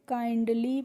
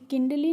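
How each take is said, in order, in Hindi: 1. पहला स्वर एक लंबी 'eye' ध्वनि है। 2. पहला स्वर एक छोटी 'ih' ध्वनि है। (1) "क्या पढ़ते हैं? काइंडली पढ़ते हैं।" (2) "किंडली नहीं पढ़ते हैं"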